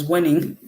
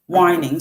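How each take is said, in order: First: "winning" with a short ih vowel; correcting it to "winning"; corrected reading. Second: "whining" with a long eye vowel; misreading it as "whining"; misread of winning. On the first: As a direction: say "winning", rhyming with spinning. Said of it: "it's not whining, it's winning". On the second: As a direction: say "whining", rhyming with dining. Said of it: "I said whining". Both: Real, not acted.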